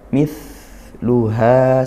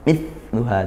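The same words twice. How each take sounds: First: The th sound is soft and hissed with flowing breath. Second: The th sound is pressed hard and the breath stops. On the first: The speaker calls it right. "Kita cukup biasa saja dan didesiskan" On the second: The speaker calls it wrong. "kalau kita tekan misluha justru tidak ketemu, tidak keluar nafasnya ... malah mampet"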